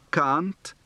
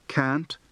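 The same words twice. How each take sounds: First: Can't with an open back a, as in father; broad a can't. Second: Can't with the flat a of cat; plain English can't. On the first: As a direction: say Can't with a long open ah sound. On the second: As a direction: say Can't with a short front a, as in cat. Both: Shown as a demonstration. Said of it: "English practice for the shift from a to a".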